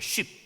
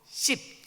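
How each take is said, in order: First: The word begins with an sh sound. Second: The word begins with an s sound. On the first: The speaker is not from Ephraim. The speaker calls it right. "쉽이라는 발음을 못해요" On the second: The speaker is from Ephraim. The speaker calls it wrong. "그래서 씹 그렇습니다"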